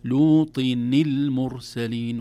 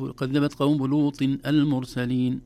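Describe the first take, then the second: First: "لوط المرسلين" linked as lutinil-mursalin; slow, loud recitation, dropping the alif of "المرسلين"; joined with kasra. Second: "لوط المرسلين" without the kasra link, saying lutin al-mursalin; slow, louder recitation, restarting "المرسلين" on its alif; unjoined tanween. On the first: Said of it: "أما مع ما قبلها". ("لوط المرسلين" موصولة بكسر نون التنوين) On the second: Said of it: "لماذا لم نقول حرف". ("لوط المرسلين" بلا كسر نون التنوين) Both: Shown as a demonstration.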